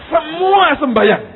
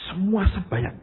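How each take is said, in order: First: "Semua sembahyang" drawn out much higher and louder; slow, ringing stress on "Semua"; preacher hammering home "Semua sembahyang"; emphatic repeat. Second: Said in the usual way. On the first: Shown as a demonstration.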